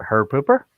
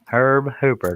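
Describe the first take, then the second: First: HOOPER as the rejected version, rising at the end; wrong name version. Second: HERB HOOPER said distinctly, with a small pause; careful name correction. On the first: Host rejecting a botched name, questioning rise. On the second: Host correcting the guest's name, careful and distinct. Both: Shown as a demonstration. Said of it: "not Herb Hooper".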